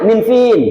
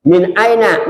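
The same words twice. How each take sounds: First: Min fin clipped and pitched high, the street Saudi way; Saudi slang. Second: Min aina said carefully, full classical form; proper Arabic. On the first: Teacher mimics how Saudis shorten it. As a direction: toss off min fin like a local. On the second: Teacher gives the proper Arabic before the slang. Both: Shown as a demonstration. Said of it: "Dari mana tuh min fin?".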